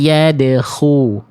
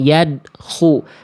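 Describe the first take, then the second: First: The d is released with an audible bounce. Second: The d is cut off flat without a bounce. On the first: The speaker calls it right. "Jadi ada pantulannya" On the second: The speaker calls it wrong. "nggak cuman yadkhu"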